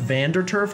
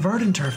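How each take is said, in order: First: The name begins with the syllable 'van'. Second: The name begins with the syllable 'ver'. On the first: The speaker calls it wrong. "I've literally called that town Vanderturf Town for like my entire life" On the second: The speaker calls it right. "actually pronouncing it correctly"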